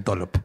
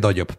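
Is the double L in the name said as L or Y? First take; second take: L; Y. First: The double L sounds like an L. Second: The double L sounds like a Y. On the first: This is how the name is actually pronounced. "pero se pronuncia Dollop" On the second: This is how the spelling reads. "se escribe Doyop"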